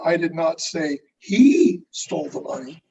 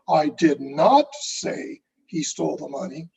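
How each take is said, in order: First: The stress falls on the word he. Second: The stress falls on the word say. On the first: Someone else stole it. "who are you saying stole it?" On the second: It was communicated some other way. "then how did you communicate that message?"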